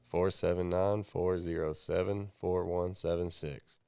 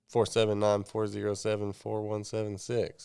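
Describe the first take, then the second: First: The number is said more slowly. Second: The number is said at normal speed.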